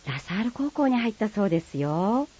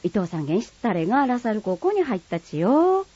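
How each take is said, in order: First: Same news in prim, softer standard Japanese; polite standard Japanese. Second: News shared in broad Kagoshima dialect, rising at the end. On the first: Friend passing on school news in polite standard Japanese. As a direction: report it politely in standard speech. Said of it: "標準語と鹿児島弁". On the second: Neighbour passing on school news in Kagoshima dialect. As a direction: gossip it in thick Kagoshima dialect. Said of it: "鹿児島弁は". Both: Acted.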